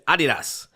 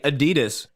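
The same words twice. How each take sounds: First: The name has its original, non-Americanized pronunciation. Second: The name has an Americanized pronunciation. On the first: The speaker calls it right. "It is Adidas" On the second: The speaker calls it wrong. "if you say Adidas to one of the Reebok executives, they will correct you"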